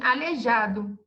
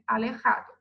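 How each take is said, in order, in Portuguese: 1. O j é um som zh suave. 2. O j é um som áspero e gutural. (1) "o aluno pode ler assim, aleijado, porque se escreve dessa maneira" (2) "em espanhol, como vocês sabem, o J tem som de R"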